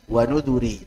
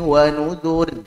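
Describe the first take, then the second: First: The word ends with a short i vowel. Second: The word ends on the r sound. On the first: This is the original form with the ya. "Ada yaknya di asalnya" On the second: The ya is dropped as in the written text. "secara rasam yaknya udah dibuang"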